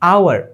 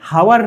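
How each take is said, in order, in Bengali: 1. শব্দটি সরাসরি একটি স্বরধ্বনি দিয়ে শুরু হয়। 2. শব্দটি h ধ্বনি দিয়ে শুরু হয়। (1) "এইচ তো উচ্চারণই করি না" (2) "ঘন্টা মানে হাওয়ার না"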